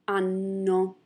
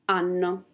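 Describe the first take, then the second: First: The word is said slowly. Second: The word is said at normal speed.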